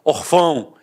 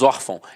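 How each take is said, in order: First: The stress is on the last syllable. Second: The stress is on the first syllable. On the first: The speaker calls it wrong. "se fosse um acento gráfico, eu não falaria órfão, eu falaria orfão" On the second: The speaker calls it right. "então a sílaba tônica está na penúltima"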